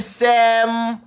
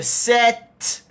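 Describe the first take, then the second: First: The word ends with an m sound. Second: The word ends with a t sound. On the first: The speaker calls it wrong. "you're wrong because you're going to say sem" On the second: The speaker calls it right. "if this letter is T and you say set"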